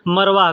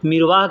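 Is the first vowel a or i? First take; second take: a; i. First: The first vowel is an a sound. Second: The first vowel is an i sound. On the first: "कोई लोग मरवाह कहते हैं" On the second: "किसी क्षेत्र में कोई लोग मिरवाह कहते हैं"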